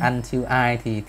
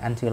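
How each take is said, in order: First: The two words are said separately. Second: The two words run together as one. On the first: "Đọc tách là until I thì dễ nghe" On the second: "đọc thành until I là chúng ta sẽ bị giật mình"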